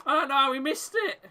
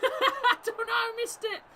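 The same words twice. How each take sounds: First: Said in the usual way. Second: High, laughing through the words; giggling in disbelief; real laughter repeating the line. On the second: Real, not acted. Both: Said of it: "I shouldn't be laughing".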